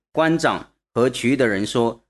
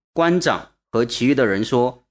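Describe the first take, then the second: Both takes have the same delivery.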